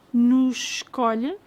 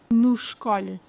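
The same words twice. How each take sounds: First: "nos escolhe" slow, sh of nos joined; slow demo. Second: "nos escolhe" at normal speed, run together; natural pace. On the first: Teacher slowly showing the linked sh in nos escolhe. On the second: Teacher saying nos escolhe at natural pace. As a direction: say it naturally linked. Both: Shown as a demonstration. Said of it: "As chaves".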